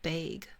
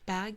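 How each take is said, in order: First: The word is said with a Canadian vowel. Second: The word is said with an American vowel. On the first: "Canadians and like Minnesotans will say bag" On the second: "Americans say bag"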